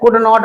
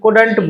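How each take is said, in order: First: Could not said as two full words, the wrong way; the long form could not, to avoid; could not spelled out, not used. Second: Couldn't as one word, could-n't; Couldn't said short, contracted. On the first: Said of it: "could not नहीं बोलना है". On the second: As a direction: say Couldn't, never could not. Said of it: "Couldn't बोलना है". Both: Shown as a demonstration.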